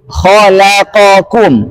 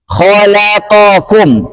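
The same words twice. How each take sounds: No difference in how they are said.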